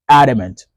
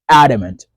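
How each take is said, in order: No difference in how they are said.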